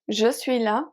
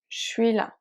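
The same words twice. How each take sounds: First: Je is said in full with its vowel. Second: Je is reduced to a sh sound. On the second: "je often becomes sh when speaking"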